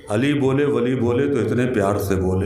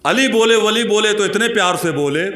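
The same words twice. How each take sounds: First: Low, restrained first reading; संयत शेर-पाठ. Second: High, projected declamation; Josheela शेर-पाठ. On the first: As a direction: introduce the verse in a low, contained voice. शेर की पहली पढ़त. (धीमे सुर में शेर पढ़ना) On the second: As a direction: launch the verse high, easing down at the end. वही शेर जोश से. (ऊँचे सुर में जोश से शेर पढ़ना) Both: Acted.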